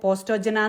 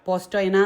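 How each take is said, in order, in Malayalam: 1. j ഇംഗ്ലീഷിലെ j പോലെയാണ് പറയുന്നത്. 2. j ഇംഗ്ലീഷിലെ y പോലെയാണ് പറയുന്നത്. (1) "അങ്ങനെയല്ല" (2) "പോസ്റ്റോയന എന്നാണ് ഇത് പ്രൊണൗൺസ് ചെയ്യുന്നത്"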